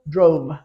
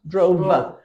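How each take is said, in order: First: The word is said as one syllable. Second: The word is split into two syllables. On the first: The speaker calls it right. "Just put the v, v sound on the end of one syllable" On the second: The speaker calls it wrong. "don't make it two syllables though. Don't say drove, drove. Don't say that"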